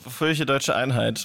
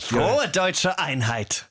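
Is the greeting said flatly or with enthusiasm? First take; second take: flatly; enthusiastically. First: It is said flatly, without enthusiasm. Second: It is said with more enthusiasm.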